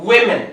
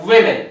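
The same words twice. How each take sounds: No difference in how they are said.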